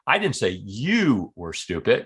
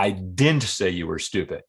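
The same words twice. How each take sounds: First: The word you carries the strongest stress. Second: The word didn't carries the strongest stress. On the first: The remark was about somebody else. "I was talking about somebody else" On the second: It is a flat denial of having said it. "Flat out denial"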